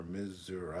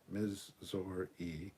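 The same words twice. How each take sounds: First: "Missouri" as "Miz-ZOO-rah"; Southern pronunciation. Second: "Missouri" very slowly as "Miz-ZOR-ee"; syllable-by-syllable pronunciation. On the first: Streamer shows the second way, Southern pronunciation. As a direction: end "Missouri" on "ah", not ee. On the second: Streamer shows the first way, syllable-by-syllable pronunciation. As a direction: separate each syllable of "Missouri", ending in ee. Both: Shown as a demonstration. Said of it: "two ways to pronounce Missouri".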